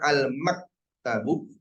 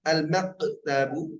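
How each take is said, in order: First: The k sound is fully held back without release. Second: The k sound bounces out strongly with much release. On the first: "Mak tertahan. Itu kurang pas" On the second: "mantul ... terlalu jauh"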